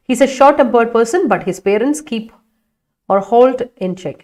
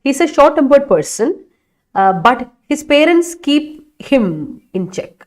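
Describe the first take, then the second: First: Slow student sentence read aloud. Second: Slow and a bit higher; slow corrected reading. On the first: Teacher reading a student's sentence slowly. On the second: Teacher rereading the corrected sentence slowly. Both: Shown as a demonstration. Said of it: "അതിലൊന്ന് മാറ്റി പിടിക്കണേ".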